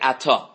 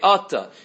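First: The stress is on the last syllable. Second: The stress is on the first syllable. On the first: "If it's mil-rah, meaning you put the stress on the end of the word" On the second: "If it's mil-el"

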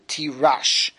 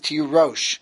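First: The last vowel is an 'a' sound. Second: The last vowel is an 'o' sound. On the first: "it's written without the vav, which means it could be read tirash" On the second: "the correct pronunciation of the word is tirosh"

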